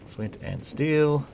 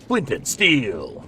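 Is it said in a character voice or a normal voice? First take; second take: normal voice; character voice. First: It is said in the speaker's normal voice. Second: It is said in a put-on character voice. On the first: "I didn't do the voice" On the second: "the voice"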